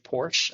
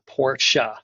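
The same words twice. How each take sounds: First: The word is said as one syllable. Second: The word is said as two syllables. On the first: The speaker calls it wrong. "I would say Porsche, a one syllable word" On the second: The speaker calls it right. "definitely a two syllable word, Porsche"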